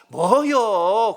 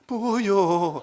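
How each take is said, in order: First: It is said in an annoyed tone. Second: It is said in a frightened tone. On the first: "짜증날 때" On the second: "무서울 때도 그러잖아요"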